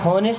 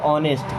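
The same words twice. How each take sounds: First: The word begins with an audible h sound. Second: The word begins with a vowel, h silent. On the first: The speaker calls it wrong. "इसको honest नहीं पढ़ते" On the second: The speaker calls it right. "इस word में एच silent होता है"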